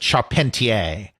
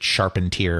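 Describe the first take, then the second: First: The name has a non-American, foreign-sounding pronunciation. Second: The name has an American English pronunciation. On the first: "I want to pronounce it Charpentier" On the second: "since he's American, he probably pronounced it Charpentier or something like that"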